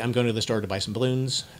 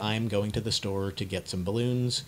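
First: It is said fast. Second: It is said at a moderate pace.

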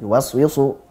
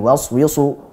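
No difference in how they are said.

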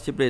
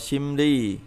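First: The first syllable ends in a p sound. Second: The first syllable ends in an m sound. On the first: The speaker calls it wrong. "không đọc là ship đi" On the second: The speaker calls it right. "đọc là sim đi"

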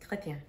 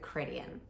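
First: The name is said with a French accent. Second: The name is said with an English accent. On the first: "you have to say it with a French accent though" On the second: "or you can just go Chrétien. it's not as interesting, but it's still correct"

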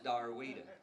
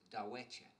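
First: The name sounds like 'Darwita'. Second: The name sounds like 'Dawecha'. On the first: This is the locally altered form of the name. "gets in the hands of a bunch of Oklahoma hillbillies, and it becomes Darwita" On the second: This is the original Choctaw form of the name. "the correct pronunciation for her name is Dawecha. That's the Choctaw language"

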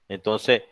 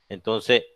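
No difference in how they are said.

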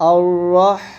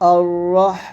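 The two takes are said the same way.

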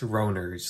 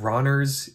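First: The first vowel is long, as in 'Rhodes'. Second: The first vowel is short, as in 'Ron'. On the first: The speaker calls it right. "it's Roner's, like Rhodes or Rhodesia" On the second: The speaker calls it wrong. "The name is not Ronner's"

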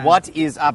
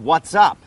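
First: Three separate words are said without linking. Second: The first two words are linked into one. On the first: The speaker calls it wrong. "แต่ไม่มีทางที่จะได้ยินฝรั่งพูดแบบนี้นะ" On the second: The speaker calls it right. "เราจะเชื่อมเสียงนะครับเป็น"

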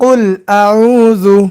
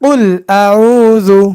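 The two takes are said the same way.

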